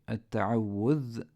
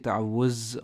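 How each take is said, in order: First: The word ends in a soft voiced th sound. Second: The word ends in a buzzing z sound. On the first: The speaker calls it right. "So you would say" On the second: The speaker calls it wrong. "you don't say ta'awuz or isti'aza. That's wrong"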